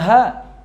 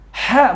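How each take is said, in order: First: The h is a light breathy sound. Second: The h is made deep in the throat. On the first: The speaker calls it wrong. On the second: The speaker calls it right. "Ha bukan ha"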